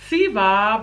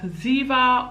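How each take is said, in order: First: "Siva" said with a hissing S at the start; name pronounced Siva. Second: "Ziva" said with a buzzing Z at the start; name pronounced Ziva. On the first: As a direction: start "Siva" with a sharp S, as in see. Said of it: "meant to be pronounced Ziva or". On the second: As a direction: start "Ziva" with a voiced Z, as in zoo. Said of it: "I don't know if it's meant to be pronounced Ziva or". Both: Shown as a demonstration.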